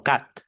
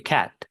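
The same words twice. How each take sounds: First: "cat" with a pure Spanish a. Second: "cat" with the ae vowel; English ae vowel. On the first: Teacher showing the wrong Spanish-style "cat". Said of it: "no cat". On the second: Teacher giving the right "cat". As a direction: say "cat" with a flat, spread A. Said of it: "Se dice cat". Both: Shown as a demonstration.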